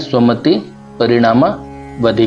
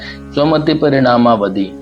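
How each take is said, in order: First: It is split into three parts with pauses. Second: It is said as one long unbroken word. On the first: "विभाजित होकर के सरल बनता है" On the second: "एक बड़ा शब्द है"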